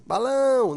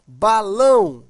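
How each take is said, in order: First: "balão" with "lão" stretched out long; drawn-out final syllable. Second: "Balão" loud and firm, weight on "lão"; stress on final syllable. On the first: Teacher repeating for the class, "balão" with lengthened "lão". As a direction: stretch the end of "balão" to expose the stress. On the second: Teacher giving an example word, "Balão" loudly stressed on "lão". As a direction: announce "Balão" strongly, hitting "lão". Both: Shown as a demonstration. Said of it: "a sílaba tônica é a última".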